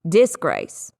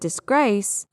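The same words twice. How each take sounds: First: The stress is on the first syllable. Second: The stress is on the second syllable. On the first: The speaker calls it wrong. "If I were to mix up the stress" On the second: The speaker calls it right. "The emphasis is on the second syllable"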